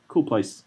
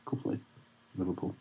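First: Said in the usual way. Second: "Cool place" almost breathed away; near-silent repeat. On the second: Shown as a demonstration. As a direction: drop "Cool place" to a murmur. Repeated aside, dropped.

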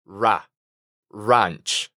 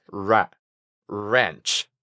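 First: Ra, ranch with an open Spanish-like A, lower. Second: Ra, ranch with a relaxed A, lower and softer. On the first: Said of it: "más abierta y parecida al español". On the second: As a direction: say ra, ranch with a lax American A. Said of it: "con una A relajada". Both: Shown as a demonstration.

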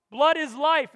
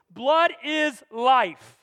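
First: Said in the usual way. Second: "Blood" hit loud and slow, "Blood is life" drawn out; stress on blood. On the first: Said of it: "repeated statement". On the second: Shown as a demonstration. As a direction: say "Blood is life" slowly, leaning on "Blood". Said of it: "slow emphatic statement".

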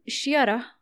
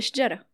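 First: شيرة, y in place of j; j turned to y. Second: Said in the usual way. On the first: Shown as a demonstration. Host shows Banu Tamim's word for tree, j turned to y. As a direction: say شيرة with a y glide, shyara. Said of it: "يبدلون الجيم ياء". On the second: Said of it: "بدل".

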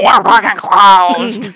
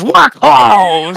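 First: Louder drawn-out angry refusal; slow aggressive growl. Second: Loud high barked refusal; aggressive snap. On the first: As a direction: drag out every word with venom. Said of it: "they all look at me and go". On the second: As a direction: bark it straight at the kid. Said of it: "in quite a slightly aggressive tone". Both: Retold or imitated.

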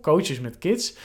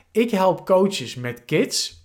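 First: Said in the usual way. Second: Reading a slogan slowly; slow statement read. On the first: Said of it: "dus daar hoor je mijn doelgroep". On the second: Shown as a demonstration. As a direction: spell out the tagline with care. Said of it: "mijn positionering ... statement ... is".

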